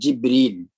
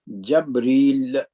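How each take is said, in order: First: The first vowel is i, then a long ee. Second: The first vowel is a, then a short i. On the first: This is the form used in the Hijaz dialect. "in the languages of Al-Hijaz, it is called Jibreel" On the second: This is the form used by some other speakers. "according to some other, it is pronounced as Jabril"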